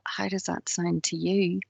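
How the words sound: It is said softly and passively. "Could be quite passive"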